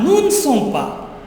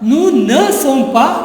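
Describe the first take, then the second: First: The vowel in 'ne' is dropped entirely. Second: The vowel in 'ne' is fully pronounced. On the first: The speaker calls it right. "But better is noon" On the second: The speaker calls it wrong. "That's also a correct pronunciation"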